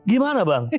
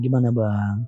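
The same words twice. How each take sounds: First: It is said harshly, sounding angry. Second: It is said in a soft, gentle tone.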